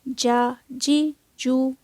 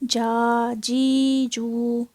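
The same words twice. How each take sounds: First: The vowels are of moderate, even length. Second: The vowels are stretched out long. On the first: The speaker calls it right. "झटका भी नहीं आएगा और लंबी भी नहीं होगी" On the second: The speaker calls it wrong. "इसको हमने जा जी जू ऐसे नहीं पढ़ना"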